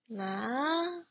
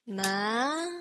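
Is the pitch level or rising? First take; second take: rising; rising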